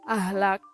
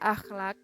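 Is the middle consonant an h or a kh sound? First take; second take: h; kh. First: The middle consonant is a plain h. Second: The middle consonant is a rough kh. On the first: The speaker calls it wrong. "fonem K H diucapkan menjadi H" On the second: The speaker calls it right. "seharusnya terbaca akhlak"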